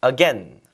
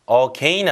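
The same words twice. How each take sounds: First: "again" with a short E, a-GEN. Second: "Again" drawn into an AY glide, a-GAYN; diphthong AGAIN. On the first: Teacher models the preferred form for learners, "again" as a-GEN. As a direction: rhyme the end of "again" with pen. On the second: Teacher contrasts the unwanted form for learners, "Again" as a-GAYN. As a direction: rhyme the end of "Again" with rain. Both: Shown as a demonstration. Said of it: "발음 다시 한번 해보세요".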